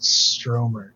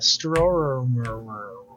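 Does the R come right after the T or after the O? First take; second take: after T; after O. First: The R sound comes right after the T. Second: The R sound comes after the O vowel. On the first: The speaker calls it wrong. "I used to pronounce it Stromer because I'm an idiot" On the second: The speaker calls it right. "there's no first R right there"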